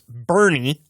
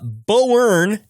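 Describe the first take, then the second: First: It is said sounding like 'Bernie'. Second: It is said not sounding like 'Bernie'. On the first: The speaker calls it right. "It's pronounced Bernie, like Bernie Sanders" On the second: The speaker calls it wrong. "which is not pronounced that"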